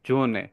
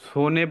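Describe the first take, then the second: First: The word begins with a buzzing z sound. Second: The word begins with a hissing s sound. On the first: The speaker calls it right. "এটা উচ্চারণ অনেকটা আমাদের থাকবে জয়ের মতো" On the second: The speaker calls it wrong. "এটা আমরা যেমন সোনে বলার কথা"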